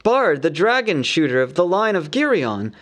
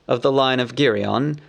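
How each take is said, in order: First: Higher, longing townsfolk praise; raised voice, mourning their lost hero; wistful praise. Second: Level, firm statement of lineage; proud declaration. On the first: Townsfolk praising Bard, whom they think dead: higher, longing. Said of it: "they all said". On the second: Bard naming his own line to the townsfolk: firm, level. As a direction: claim his ancestry plainly. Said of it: "he cried". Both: A narrator's reading.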